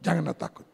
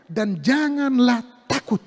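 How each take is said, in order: First: Soft, low echo; hushed repeat. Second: "janganlah takut" drawn out slowly; emphatic maxim. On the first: Preacher repeating the maxim to the congregation, hushed. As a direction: drop down and let it sink in. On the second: Preacher to congregation, translating the book's title, emphatic. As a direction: stretch "janganlah" and land firmly on "takut". Key maxim stressed, then repeated. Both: Real, not acted.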